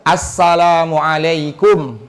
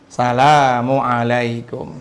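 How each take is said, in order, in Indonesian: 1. Salam ini diawali dengan bunyi artikel 'as'. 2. Salam ini diawali tanpa bunyi artikel. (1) "Jangan sampai salah juga tuh" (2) "Cuman gini"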